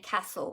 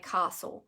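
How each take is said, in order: First: It uses the Victorian regional pronunciation. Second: It uses the speaker's local regional pronunciation. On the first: This is how people in Victoria say it. "down in Victoria they do actually pronounce some words differently to up here, such as they say castle" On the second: This is how people up here say it. "and we say castle"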